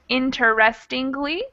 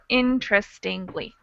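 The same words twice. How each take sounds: First: The word is said with five syllables. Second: The word is said with four syllables. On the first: "it looks like it would be pronounced interestingly" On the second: "most American English speakers would just pronounce it with four"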